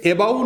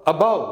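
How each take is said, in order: First: एबाउ with a full "ay" opening; mispronounced first vowel. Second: अबाउ as "uh-BAU"; light "uh" in अबाउ, weight on BAU; schwa, stress on second syllable. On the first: Teacher rejects the common error, एबाउ with clear "ay". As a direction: say एबाउ as "AY-bau". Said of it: "एबाउ नहीं है". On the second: Teacher models the correct word, अबाउ stressed on BAU. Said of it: "ज़्यादा जोर दे के बोल रहे हैं". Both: Shown as a demonstration.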